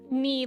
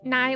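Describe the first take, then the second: First: The first syllable sounds like knee. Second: The first syllable sounds like night. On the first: "Ni like knee" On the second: "Nai like night"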